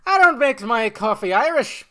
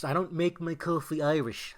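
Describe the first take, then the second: First: Loud, high, hammed-up Irish accent; Irish accent attempt. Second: Botched attempt at an Irish accent; failed Irish accent. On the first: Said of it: "There you go, something like that". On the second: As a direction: try an Irish accent and miss it. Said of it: "that wasn't even an Irish accent".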